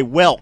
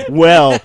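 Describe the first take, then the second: First: "welk" ending in a hard K; saying welk. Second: "well" said plainly; saying well. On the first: Friend mocks his Australian "welk" with a K. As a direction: close "welk" on a K. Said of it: "with a K". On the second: Friend quotes how Anthony usually says "well". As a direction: say "well" as normal. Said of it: "usually when Anthony says". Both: Retold or imitated.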